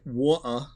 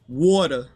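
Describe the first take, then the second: First: It is said in a British accent. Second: It is said in a Manhattan accent. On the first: "I know they say water" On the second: "that's how you say it if you're, you're from Manhattan"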